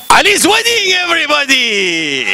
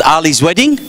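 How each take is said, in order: First: Crowd-hyping announcement. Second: Said in the usual way. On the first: Real, not acted. Comic plugging his film to the audience, high announcer shout. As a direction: proclaim the title to the whole hall.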